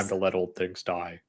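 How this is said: It is read in an imitation of an actor's voice.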